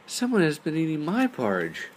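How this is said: It is said in a medium-sized voice. "cried in her medium-sized voice"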